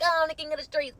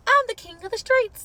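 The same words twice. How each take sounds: First: Said in the usual way. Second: High, loud mock bragging; mocking boast. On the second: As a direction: puff it up like a show-off king. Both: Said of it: "you were like".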